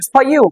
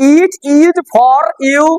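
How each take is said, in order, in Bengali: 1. 'It is' কে সংকুচিত করে 'it's' বলা হয়। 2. 'It is' কে দুটি পূর্ণ শব্দ হিসেবে বলা হয়। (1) "এটা তোমার জন্য" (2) "আমরা বাঙালিরা বলবো ইট ইজ"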